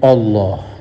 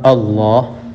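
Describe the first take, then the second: First: The opening sound is thick and heavy. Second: The opening sound is thin and light. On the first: The speaker calls it wrong. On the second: The speaker calls it right.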